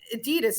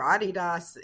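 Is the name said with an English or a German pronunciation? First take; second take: English; German. First: The name is said the English way. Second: The name is said the German way.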